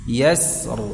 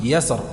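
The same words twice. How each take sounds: First: The s sound is held and lengthened. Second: The s sound is short and clipped. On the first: The speaker calls it right. "berikan tempo atau durasi huruf sinnya" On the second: The speaker calls it wrong. "tidak langsung yasr, enggak"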